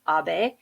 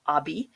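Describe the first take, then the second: First: The final e is sounded like 'a'. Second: The final e is not sounded like 'a'. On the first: The speaker calls it right. "it's Abe" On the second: The speaker calls it wrong. "Some people in the U S I hear call him Abe, but it's not"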